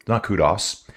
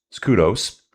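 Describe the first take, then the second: First: "kudos" ending in short open o, koo-doss; wrong "kudos". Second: "kudos" ending in a long OH, koo-dohs; correct "kudos". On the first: Mocking the commentators' mistake, "kudos" said koo-doss. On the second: Viewer correcting race commentators, "kudos" said koo-dohs. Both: Shown as a demonstration.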